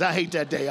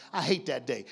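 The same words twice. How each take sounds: First: Louder I hate that day, rallying the crowd; louder repeat. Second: Said in the usual way. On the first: Shown as a demonstration. Preacher rallying congregation to clap, louder. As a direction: punch I hate that day out to the room. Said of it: "clap your hands".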